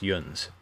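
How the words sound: The word is said with an 'un' vowel. This is the north or midwestern Pennsylvania form. "they tend to pronounce it yuns"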